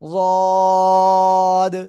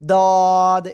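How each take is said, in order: First: The first consonant is a heavy emphatic d. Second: The first consonant is a plain tongue-tip d. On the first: The speaker calls it right. "জিহ্বার গোড়ার কিনারা উপরে মাড়ির দাঁতের গোড়ার সাথে লাগবে" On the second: The speaker calls it wrong. "দদ এরকম যেন না হয়"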